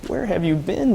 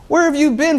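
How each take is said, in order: First: Said in the usual way. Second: Higher and louder, indignant; disbelieving cry at his partner's ignorance; mock outrage. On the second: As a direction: throw the question back at him, appalled. Repeats question in mock outrage.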